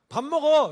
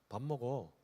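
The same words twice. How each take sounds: First: It is said at the loudest volume. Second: It is said at a soft volume.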